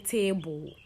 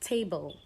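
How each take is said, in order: First: An extra vowel is inserted between B and L. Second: No vowel is heard between B and L. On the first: The speaker calls it wrong. "You don't say table" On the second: The speaker calls it right. "So it's table"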